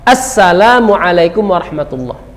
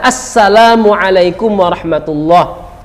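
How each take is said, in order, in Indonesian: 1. Vokal di awal salam ini dilafalkan dengan jelas. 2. Vokal di awal salam ini dilafalkan dengan jelas.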